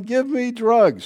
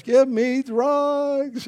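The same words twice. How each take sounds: First: Mock yell, high and drawn out; slow, raised-pitch mock cry; retold yell. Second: Very slow, high mock scream; long-drawn mock scream without real volume; retold scream. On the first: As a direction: imitate a woman yelling in labor, without much volume. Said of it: "she's yelling". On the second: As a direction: stretch each word into an imitation labor wail. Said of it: "screaming out in the house".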